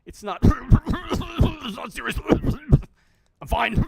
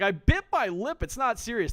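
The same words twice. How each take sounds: First: Slow, loud and higher between mock coughs; hammed-up coughing. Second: A touch higher and louder, mocking her excuse; mock survivor voice. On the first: Streamer acting the infected survivor coughing in his face, hammed up. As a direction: fake a hacking cough as you insist. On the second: Streamer mimicking the bleeding survivor's excuse, mildly mocking. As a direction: parrot her excuse back with a mild sneer. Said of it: "She's like".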